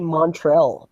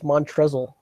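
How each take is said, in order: First: The name sounds like the city Montreal. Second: The name has a z sound near the end. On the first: This is how other people say it. "They they always say Montreal" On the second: This is how the speaker thinks it goes. "I always think it's Montrezl"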